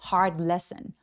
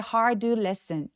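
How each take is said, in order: First: The d in hard is barely audible. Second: The d in hard is pronounced clearly. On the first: The speaker calls it right. "디귿 받침 정도로 아주 조금만 느껴지게" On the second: The speaker calls it wrong. "또렷하게 hard lesson 이러지 않고요"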